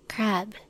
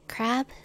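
First: The voice falls at the end like a statement. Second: The voice rises at the end like a question. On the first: It is stated as a fact. "Crab, period. Statement" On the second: It is asked as a question. "Question mark?"

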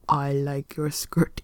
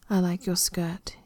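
First: It is said in a low voice. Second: It is said in a normal voice.

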